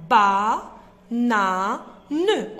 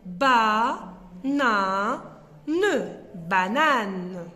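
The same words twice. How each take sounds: First: Louder chant of ba na ne; syllables punched. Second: Ba, na, ne slowly and loud, then banane whole; slow sounding out of banane; slow syllables then word. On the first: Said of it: "la syllabe ne". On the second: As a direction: stretch each syllable then blend. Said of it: "Voilà le mot". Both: Shown as a demonstration.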